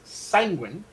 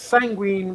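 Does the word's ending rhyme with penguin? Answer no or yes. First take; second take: yes; no. First: The ending rhymes with penguin. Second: The ending does not rhyme with penguin. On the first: This is how the name owner says it. "rhymes with penguin" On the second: This is how someone else says the name. "which then would rhyme with Bajine"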